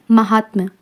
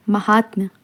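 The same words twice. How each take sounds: The two takes are said the same way.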